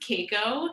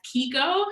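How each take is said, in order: First: The first syllable sounds like 'kay'. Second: The first syllable sounds like 'key'. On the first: This is the traditional pronunciation. "is traditionally pronounced Keiko" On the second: This is the family's own pronunciation. "my family has always pronounced it as Kiko"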